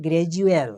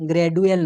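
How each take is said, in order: First: গ্র্যাজুয়াল with d softened to j, "gra-JU-al"; গ্র্যাজুয়াল with a clear j in the middle; j-sound pronunciation. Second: গ্র্যাজুয়াল with a plain d, "gra-DU-al"; mispronounced গ্র্যাজুয়াল, hard d in the middle; wrong hard-d pronunciation. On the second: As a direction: say গ্র্যাজুয়াল with d in place of the j sound. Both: Shown as a demonstration. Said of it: "নাই মানে গ্র্যাজুয়াল".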